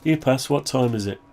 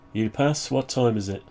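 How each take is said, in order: Both takes have the same delivery.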